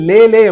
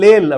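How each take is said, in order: First: The name ends in an open vowel sound. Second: The name ends in an l consonant. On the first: The speaker calls it right. "அதே மாரி லேலே அப்படின்னு இருக்கும்" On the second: The speaker calls it wrong. "நான் லேல் அப்படின்னு சொல்லுவேன். அவங்கலாம் சிரிப்பாங்க"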